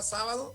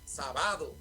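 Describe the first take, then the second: First: The stress is on the first syllable. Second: The stress is on the second syllable. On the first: This is the word written with its accent mark. "digo sábado" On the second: This is the word written without its accent mark. "lo que estoy diciendo es sábado ... la agravo"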